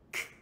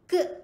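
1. Huruf k dilepaskan hanya dengan angin. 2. Huruf k dilepaskan dengan vokal yang terlantun. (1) "kemudian bunyikan angin k" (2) "Kalau kata kita terbuat"

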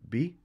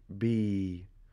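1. De klinker is kort. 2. De klinker wordt lang aangehouden. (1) "in plaats van bi" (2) "ik kom met een met een ja. Met een sukoon"

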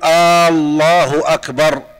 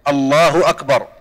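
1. الحركة الأولى من الكلمة الأولى ممدودة. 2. الحركة الأولى من الكلمة الأولى قصيرة. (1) "أن لا يمد الهمزة ... فلا يصح أن يقول" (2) "أن تكون بهذا اللفظ"

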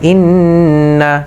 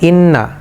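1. দ্বিত্ব 'n' লম্বা নাকি সুরের সঙ্গে টেনে ধরা হয়। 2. দ্বিত্ব 'n' সংক্ষেপে বলা হয়, টেনে ধরা হয় না। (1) "ওয়াজিব গুনাহ করে যদি উচ্চারণ করতে যান তাহলে এইভাবে করতে হবে" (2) "নর্মাল যেভাবে আমরা উচ্চারণ করি, মানুষ যেভাবে উচ্চারণ করে থাকে"

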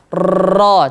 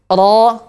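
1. Huruf R digetarkan panjang dan keras. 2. Huruf R hanya sedikit bergetar. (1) "dia tidak boleh dibaca takrirnya berlebihan, getarannya berlebihan" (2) "dia ada getarannya sedikit"

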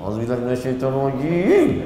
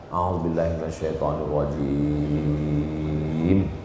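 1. Diucapkan dengan suara panas dan marah. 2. Diucapkan dengan suara tenang dan stabil. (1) "Itu awal-awal lagi" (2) "Memang waktu awal-awal tu tak begitu bunyinya"

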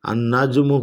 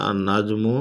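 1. 'l' মিলে গিয়ে দ্বিত্ব n ধ্বনি হয়। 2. 'l' মিলে গিয়ে দ্বিত্ব n ধ্বনি হয়।

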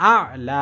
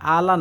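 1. স্বরধ্বনিটি স্পষ্ট টানের সঙ্গে দীর্ঘ করে টানা হয়। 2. স্বরধ্বনিটি হ্রস্ব করে বলা হয়, কোনো টান ছাড়া। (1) "একালি পরিমাণ টান আছে" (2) "আ'লা না"

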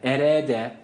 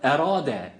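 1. r ince, ünlüsü kapalı 'e'. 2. r kalın, ünlüsü açık 'a'. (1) "erede değil" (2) "Ra kalındır. A sesi verdik"

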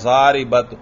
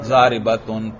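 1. शब्द सादे t की आवाज़ पर खत्म होता है। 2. आखिरी t के बाद स्वर u और n आता है। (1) "जारिबत नहीं" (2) "बल्कि क्या है? जारिबतुन। ता पर भी हरकत है"

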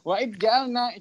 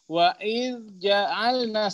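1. Kalau dibaca cepat, d menyatu sebagai konsonan ganda. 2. Kalau dibaca pelan-pelan, d terpisah dari j. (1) "Siddah di huruf dzal" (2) "kalau bacanya tahqiq sih, selamat"

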